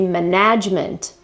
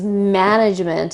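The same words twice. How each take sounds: First: The stress is on the second syllable. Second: The stress is on the first syllable. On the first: The speaker calls it wrong. "shift the accent to the second part of the word and say management" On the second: The speaker calls it right. "the accent is on the first syllable"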